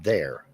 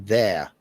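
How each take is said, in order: First: The final R sound is pronounced. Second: The final R sound is dropped. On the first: "instead of there" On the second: "or there"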